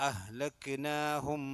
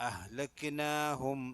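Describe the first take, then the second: No difference in how they are said.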